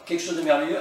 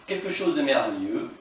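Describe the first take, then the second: First: "quelque chose de merveilleux" lifted higher and louder with a rising end; delighted title. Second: Said in the usual way. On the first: Shown as a demonstration. Vlogger proudly presents the rare song to fans, excited. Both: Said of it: "et voilà".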